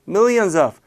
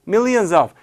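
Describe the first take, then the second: The two takes are said the same way.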